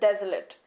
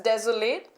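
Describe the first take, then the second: First: It is said the way the adjective is pronounced. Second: It is said the way the verb is pronounced. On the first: It is used as an adjective. "When it is used as adjective, it is pronounced as desolate" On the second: It is used as a verb. "When it is used as a verb, it is pronounced as desolate"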